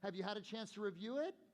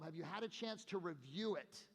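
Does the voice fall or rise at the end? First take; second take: rise; fall. First: The pitch rises at the end of the question. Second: The pitch falls at the end of the question. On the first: The caller sounds unsure and invites resistance. The speaker calls it wrong. "Weak, questionable" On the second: The caller sounds confident and stays in control. The speaker calls it right. "Little karate chop down changes my tone. It's called a downswing in tonality"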